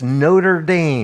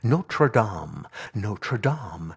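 First: The name is pronounced the American English way. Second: The name is pronounced the French way. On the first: It names the American football school. "when they're talking about football, it's" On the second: It names the cathedral in France. "the beautiful cathedral in France, they always say it correctly"

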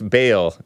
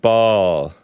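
First: The vowel sounds like the one in 'mail'. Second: The vowel sounds like the one in 'fall'. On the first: "that's how I pronounce Bale" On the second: "Some people pronounce it ball"

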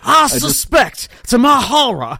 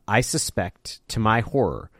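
First: It is read in a put-on drawling character voice. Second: It is read in an ordinary, plain voice.

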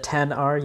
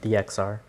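First: The X is said as the number ten. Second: The X is said as the letter ex. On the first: The speaker calls it right. "You pronounce it 10" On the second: The speaker calls it wrong. "you don't say X"

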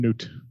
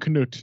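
First: The initial K is silent before the n. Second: The initial K is pronounced before the n. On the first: The speaker calls it wrong. "not King Knut" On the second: The speaker calls it right. "It's King Knut"

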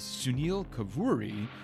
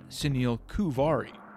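First: The surname is said as Kavuri. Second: The surname is said as Kuvari. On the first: The speaker calls it right. "It is Sunil Kavuri" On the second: The speaker calls it wrong. "not Sunil Kuvari"

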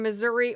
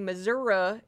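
First: It is said with the standard pronunciation. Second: It is said with a southern regional pronunciation. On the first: "I am from Missouri" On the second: "some people would say Missouri, if you're from the southern part of the state"

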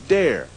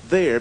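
First: The word begins with a d sound. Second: The word begins with a th sound. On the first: "is replaced by a D sound" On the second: "the TH sound"

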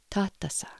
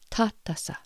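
First: The T sounds soft, tongue behind teeth. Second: The same.

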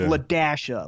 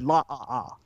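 First: The middle is said aloud as 'dash'. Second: The dash is skipped, leaving only vowel sounds. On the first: The speaker calls it right. "they were pronounced the dash. It was LaDasha" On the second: The speaker calls it wrong. "but I said La-ah-ah"

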